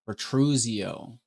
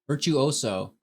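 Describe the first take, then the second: First: The word sounds like 'vi-TROO-zee-oh'. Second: The word sounds like 'vir-choo-OH-so'. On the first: The speaker calls it wrong. "I say that wrong" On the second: The speaker calls it right. "There we go"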